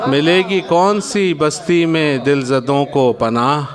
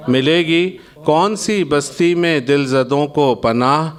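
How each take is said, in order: Both takes have the same delivery.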